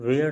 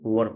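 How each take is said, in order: First: The vowel sounds like the 'ai' in 'wair'. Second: The vowel sounds like the short 'ur' in 'wur'. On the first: The speaker calls it wrong. "वेयर नहीं" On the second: The speaker calls it right. "इसको वर पढ़ा जाता है"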